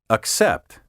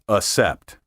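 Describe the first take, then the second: First: The double C is said as K plus S. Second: The double C is said as a single S. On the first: The speaker calls it right. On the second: The speaker calls it wrong. "not accept"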